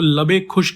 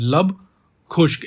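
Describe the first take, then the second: First: An 'e' vowel links the two words. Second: The two words join with no vowel between. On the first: The speaker calls it wrong. "इसको लबे खुश्क नहीं बोलेंगे" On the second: The speaker calls it right. "लब खुश्क बोलेंगे"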